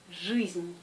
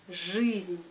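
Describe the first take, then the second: The two takes are said the same way.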